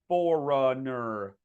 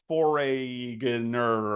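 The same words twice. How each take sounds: First: No G sound is heard in the middle. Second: A G sound is heard in the middle. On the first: The speaker calls it right. "So the way you pronounce this word is like that" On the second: The speaker calls it wrong. "A lot of people get tripped up here because they say foreigner"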